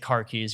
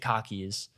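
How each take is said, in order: First: The R sound is clearly pronounced. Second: The R sound is dropped entirely.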